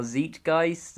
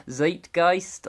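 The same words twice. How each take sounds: First: First vowel of 'Zeitgeist' as in 'see'. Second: First vowel of 'Zeitgeist' as in 'eye'; 'Zeitgeist' with a long i. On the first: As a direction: say 'Zeitgeist' with first syllable rhyming with 'feet'. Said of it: "however you pronounce it". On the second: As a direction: say 'Zeitgeist' with first syllable rhyming with 'kite'. Trying alternative pronunciations of a title. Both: Shown as a demonstration.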